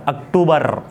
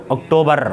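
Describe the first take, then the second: First: अक्टूबर said əkʈubəɾ with the r sounded; the wrong way: अक्टूबर with a tapped r; with a rolled r. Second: अक्टूबर said okʈobə with no r at the end; no r sound. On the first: Teacher showing the wrong way: अक्टूबर with the r sounded. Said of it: "ऐसा नहीं बोल रहा हूँ". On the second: Teacher correcting student: अक्टूबर with no final r. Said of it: "आर नहीं बोल रहा हूँ मैं". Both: Shown as a demonstration.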